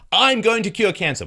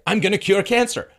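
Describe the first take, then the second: First: Mock insistence, louder. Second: Mock insistence. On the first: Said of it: "mock dialogue with investors". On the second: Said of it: "And I say".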